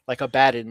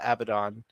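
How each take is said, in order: First: The name sounds like 'a bad'. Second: The name does not sound like 'a bad'. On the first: It means he is the big bad guy. "like a bad guy" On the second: It refers to the demon. "the demonic name"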